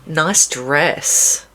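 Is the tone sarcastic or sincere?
sarcastic. It is said in a mocking, sarcastic tone. The speaker is insulting the dress. "a really nasty thing"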